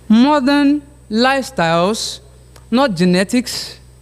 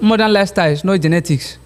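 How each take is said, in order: First: Short pauses separate the phrases. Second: The phrases run together without pauses. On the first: The structure of the motion is made clear. The speaker calls it right. "help us see where the pauses are" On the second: The structure of the motion is not made clear. The speaker calls it wrong. "It doesn't show what you are saying"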